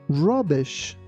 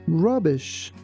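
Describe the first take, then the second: The two takes are said the same way.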